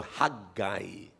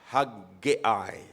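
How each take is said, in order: First: Haggai said softly as hag-eye, two syllables; self-pronouncing Bible way. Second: Haggai said as hag-ay-eye, three syllables; dictionary pronunciation. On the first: Pastor reading the Bible's pronunciation, soft hag-eye. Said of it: "sa self-pronouncing Bible, nakalagay dito". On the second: Pastor showing the dictionary way to say Haggai. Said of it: "sa dictionary ... pwede naman yung". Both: Shown as a demonstration.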